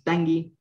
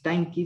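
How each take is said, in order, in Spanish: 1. La consonante después de la n suena como g. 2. La consonante después de la n suena como k. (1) "sino es Tangi en la pronunciación" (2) "no es Tanki"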